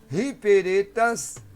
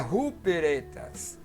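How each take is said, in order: First: The first vowel sounds like 'ee'. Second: The first vowel sounds like 'oo'. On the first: The speaker calls it right. "Então aí é um Y, que é o I grego" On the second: The speaker calls it wrong. "mas por que não é ruperetas?"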